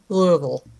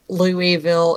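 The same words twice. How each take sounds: First: It is pronounced the way locals say it. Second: It is pronounced the way it is spelled. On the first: The speaker calls it right. "it's Louisville" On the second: The speaker calls it wrong. "spelled like Louisville, and it's not Louisville"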